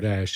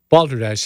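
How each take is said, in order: First: The first vowel sounds like in 'bowl'. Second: The first vowel sounds like in 'ball'. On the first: "if you're in Colorado" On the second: "It's B A L"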